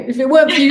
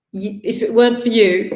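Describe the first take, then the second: First: Higher, louder, voice welling up; rising emotion. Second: Said in the usual way. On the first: Real, not acted. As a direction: let the feeling swell on the repeat. Emotional thanks, repeated.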